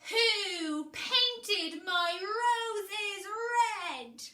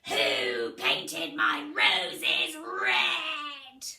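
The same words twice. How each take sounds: First: It is said in the speaker's usual voice. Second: It is said in a strong, low, scratchy queen voice.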